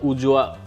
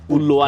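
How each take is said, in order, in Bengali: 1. মাঝের ব্যঞ্জনটি Y ধ্বনির মতো। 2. মাঝের ব্যঞ্জনটি L ধ্বনির মতো। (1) "উজোয়াও হওয়ার কথা" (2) "উল্লোয়াটার উচ্চারণ"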